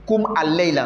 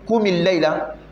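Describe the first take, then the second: First: The m is followed by a spoken a vowel. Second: The m links to the next word with an i. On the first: The speaker calls it wrong. "Ils vont dire kum al-layla. Non" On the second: The speaker calls it right. "pourquoi il est écrit kumil layla?"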